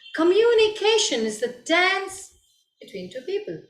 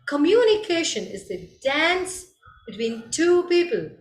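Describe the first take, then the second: First: Only the word communication is stressed. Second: Every main word in the sentence is stressed. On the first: "putting the stress on communication" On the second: "put the stress on all the words"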